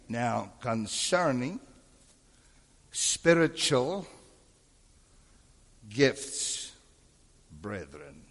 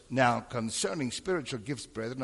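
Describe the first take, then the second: First: Very slow, long pauses between words; slowed-down reading. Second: Said in the usual way. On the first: Shown as a demonstration. Teacher showing the pastor how to reread the verse, slow and deliberate. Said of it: "slow down. Read it again". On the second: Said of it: "slow down".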